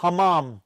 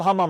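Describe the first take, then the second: First: "Hammam" with a full open second "a"; corrected pronunciation. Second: "hammam" with a weak, short second vowel; wrong pronunciation. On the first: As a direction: say "Hammam" as hah-MAHM, both vowels open. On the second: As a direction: say "hammam" as HAH-mum, second syllable reduced. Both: Shown as a demonstration. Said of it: "I'm saying it wrong".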